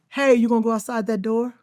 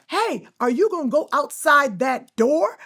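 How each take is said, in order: First: It is said plainly with little vocal energy. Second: It is said with big, exaggerated vocal energy. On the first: The visible motion carries the performance. "I can sit on the set and say" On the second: The voice alone must carry the performance. "you have to be like"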